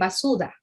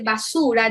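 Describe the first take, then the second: First: The consonant before the last vowel is a D. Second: The consonant before the last vowel is an R. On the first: The speaker calls it wrong. "dicen basuda" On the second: The speaker calls it right. "en vez de decir basura"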